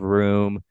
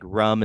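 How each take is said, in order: First: Said in the usual way. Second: "rum" with a short, clipped vowel, like the drink; local "rum" for room. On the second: Shown as a demonstration. New Hampshire local showing how they say "rum" for room. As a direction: say "rum" rhyming with drum. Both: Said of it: "instead of".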